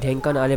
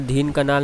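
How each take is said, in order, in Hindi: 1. नाम एक अनुनासिक 'dhen' ध्वनि से शुरू होता है। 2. नाम एक लंबी 'deen' ध्वनि से शुरू होता है। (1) "इसको मैं ढेंकानाल प्रोनाउंस करूँगा" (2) "दीन कनाल मैं इसको बोल रहा था"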